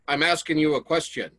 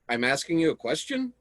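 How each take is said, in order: First: The voice falls at the end. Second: The voice rises at the end. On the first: It is a statement. "That's more of like a statement" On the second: It questions whether a question is being asked. "That's me questioning whether or not I'm asking you a question"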